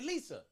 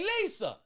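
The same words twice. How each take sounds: First: It is said casually, without emphasis. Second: It is said emphatically, with more energy.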